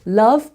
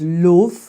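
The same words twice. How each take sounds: First: The vowel is said in a standard accent. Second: The vowel is said in a Black Country accent. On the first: "love becomes" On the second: "Very far forward, that sound"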